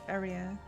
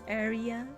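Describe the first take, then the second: First: The stress is on the first syllable. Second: The stress is on the second syllable. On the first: The speaker calls it right. "you pronounce it just like area" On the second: The speaker calls it wrong. "put the tone in the I and then it becomes area"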